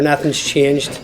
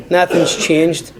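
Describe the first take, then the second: First: Said in the usual way. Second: "Nothing's changed" slowed right down and weighted; slow emphatic repeat. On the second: Real, not acted. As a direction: drag out "Nothing's changed" heavily to drive it home.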